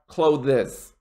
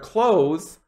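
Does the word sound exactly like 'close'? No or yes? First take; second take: no; yes. First: It sounds different from the word close. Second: It sounds exactly like the word close. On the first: The speaker calls it wrong. "not clothes" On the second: The speaker calls it right. "Say it the exact same way as close"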